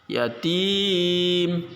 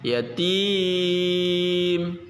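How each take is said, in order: First: The long vowel is held for two beats. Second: The long vowel is held for four beats.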